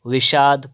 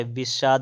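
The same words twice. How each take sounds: First: "विषाद" loud, starting with v; written form. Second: "विषाद" starting nearer b; corrected spelling. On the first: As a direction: open "विषाद" with v and sh. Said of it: "क्या होता है?". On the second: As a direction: say "विषाद" as bishaad. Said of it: "ये वाला होता है". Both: Shown as a demonstration.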